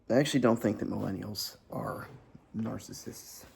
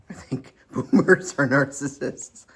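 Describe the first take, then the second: First: Said in the usual way. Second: "are" hit hard and loud, with a laugh; laughing emphasis. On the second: Real, not acted. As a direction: punch the word "are", laughing. Correction set against previous claim.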